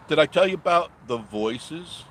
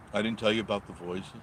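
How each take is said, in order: First: Louder, rising, teasing the story; eager question. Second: Said in the usual way. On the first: Real, not acted. Teasing the ghost story to viewers, louder. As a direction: hook them with the question.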